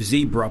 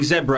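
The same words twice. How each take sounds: First: It is said the American way. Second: It is said the British way.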